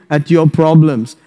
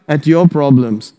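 No difference in how they are said.

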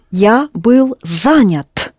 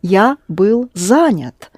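First: Я был занят said slowly, stress on был; slow model sentence. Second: Я был занят drawn out, ending on занят; slow model sentence. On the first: Teacher modelling the sentence slowly for the student. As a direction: stretch it out for the student. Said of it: "Да". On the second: Teacher modelling the man's version slowly. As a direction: say it slowly and carefully. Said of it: "That's what a man says". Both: Shown as a demonstration.

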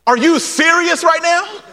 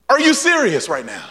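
First: High, rising mock disbelief; incredulous. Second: Said in the usual way. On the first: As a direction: ask it as if you can't believe it. Mock disbelief at the blind men.

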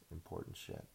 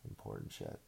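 First: Said in the usual way. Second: Breathy sarcastic whisper echo; whispered mock echo. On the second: Shown as a demonstration. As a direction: repeat it under your breath, mocking.

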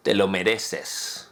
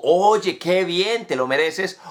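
First: Sarcastic tone. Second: Sincere, pleased congratulation; affirming tone. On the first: Teacher demos the phrase with sarcastic bite. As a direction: lower and softer, slow and dry sarcasm. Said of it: "o en un tono sarcástico". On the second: Teacher demos praise in an affirming tone. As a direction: tell a friend they earned it, warmly. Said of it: "en un tono afirmativo". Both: Shown as a demonstration.

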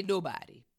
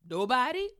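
First: Unvoiced whisper, falling; whispered nobody. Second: Higher, louder, rising question; incredulous echo. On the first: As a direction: breathe it out, defeated. Client answers her question. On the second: Retold or imitated. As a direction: throw the word back in disbelief. Coach echoes client's answer.

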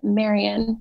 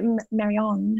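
First: Marian said as MAIR-ee-un; usual name pronunciation. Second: Marianne said as mair-ee-AHN; alternative name pronunciation. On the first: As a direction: end Marian on a short, unstressed "un". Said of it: "but I usually s-, pronounce it". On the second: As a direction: let Marianne end on a long, open "ahn". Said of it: "I like it". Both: Shown as a demonstration.

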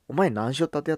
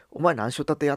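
First: Higher, louder Hakata-dialect challenge, stress on 前; the gruff Hakata way again, sounding like a threat. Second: Higher, louder Hakata-dialect challenge, rising on 前; rough Hakata question that sounds threatening to outsiders. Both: Retold or imitated. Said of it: "威嚇してるふうに聞こえると".

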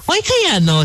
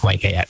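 First: "Why kaya" pitched high, like someone already in on it; knowing, agreeing tune. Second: Said in the usual way. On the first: Retold or imitated. Mimicking the co-host's reply, "Why kaya" high and knowing. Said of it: "sounds like you know what I'm talking about". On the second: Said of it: "then you ask".

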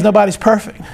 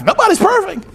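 First: Said in the usual way. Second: High, singsong excuse; acted excuse. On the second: Husband excusing his mistakes to his wife, high and playful. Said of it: "I say it all the time to my wife".

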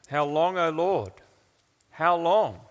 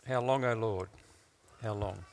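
First: Raised cry of lament; emotional plea. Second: Low, subdued plea to God; quiet lament. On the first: Preacher voicing those who pray these words, emotional plea. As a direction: plead it, building on the repeat. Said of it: "normally are dripping with emotion". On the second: Preacher opening with the prophet's question, quiet lament. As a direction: let it sink softly, pausing before the repeat. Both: Acted.

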